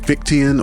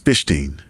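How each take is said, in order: First: The name does not start with 'fish'. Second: The name starts with the word 'fish'. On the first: The speaker calls it wrong. "online I see people pronouncing it" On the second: The speaker calls it right. "I believe the correct pronunciation is"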